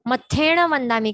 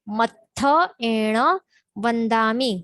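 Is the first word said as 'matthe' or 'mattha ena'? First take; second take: matthe; mattha ena. First: The first word is run together as 'matthen'. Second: The first word is split as 'mattha ena'. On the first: The speaker calls it wrong. "मत्थेण वंदामी कहते हैं, मत्थे नहीं है" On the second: The speaker calls it right. "पर मत्थ एण"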